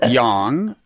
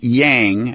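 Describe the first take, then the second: First: It is pronounced in a Mandarin-like way. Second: It is pronounced in an anglicized American way. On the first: The speaker calls it right. "the correct pronunciation is" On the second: The speaker calls it wrong. "Americans are probably accustomed to pronouncing"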